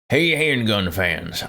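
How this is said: It is read in a put-on fud voice.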